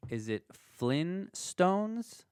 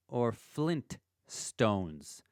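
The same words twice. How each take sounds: First: Flintstones drawn out slowly with no t sound, flin-stones; Flintstones without t. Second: Flintstones drawn out slowly with a clear t, flint-stones. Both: Shown as a demonstration. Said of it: "How is it spelt?".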